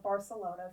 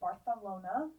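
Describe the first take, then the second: First: The name is said with an English-style pronunciation. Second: The name is said with a Spanish-style pronunciation. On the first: "if you're normal" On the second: "No shade to the Spanish"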